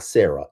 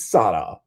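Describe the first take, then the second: First: The middle r is a plain English r. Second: The middle r is a Spanish-style tapped r. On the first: The speaker calls it wrong. "It's not Sarah" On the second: The speaker calls it right. "I got a roll of R's"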